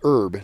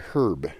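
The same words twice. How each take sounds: First: The word starts without an h sound. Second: The word starts with an h sound. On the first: "They don't say herb" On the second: "they say herb, which makes more sense since there is an H there"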